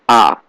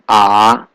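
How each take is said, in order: First: The pitch falls sharply downward. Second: The pitch dips down then rises. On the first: "Fourth tone is going down" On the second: "Third tone is going down, going up"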